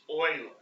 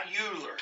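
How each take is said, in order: First: "Euler" said as OY-ler, the German way; correct pronunciation. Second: "Euler" said as YOO-ler, the way it looks; wrong pronunciation. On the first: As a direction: say "Euler" like "oiler", the right way. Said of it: "it looks like Euler. It's Euler". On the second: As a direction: say "Euler" like "yooler" to show the mistake. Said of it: "It's not Euler". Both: Shown as a demonstration.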